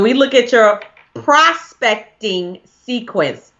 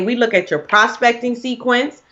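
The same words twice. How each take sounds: First: The phrase is said at a slower pace. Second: The phrase is said at a quicker pace.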